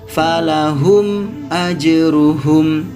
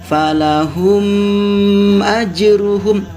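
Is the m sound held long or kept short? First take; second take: short; long. First: The m sound is kept short. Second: The m sound is held long. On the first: The speaker calls it right. "Harus pendek seperti ini" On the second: The speaker calls it wrong. "Tidak boleh kita membacanya panjang seperti ini"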